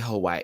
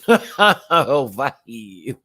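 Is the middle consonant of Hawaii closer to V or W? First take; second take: W; V. First: The middle consonant is a plain W sound. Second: The middle consonant sounds almost like a V. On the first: "I never say Hawaii" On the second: "Almost like a V is coming out, but not totally"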